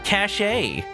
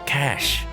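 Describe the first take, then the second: First: The word is said with an extra final syllable. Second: The word is said as one plain syllable. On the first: The speaker calls it wrong. "if I ever pronounce that one wrong" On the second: The speaker calls it right. "No, no, cash"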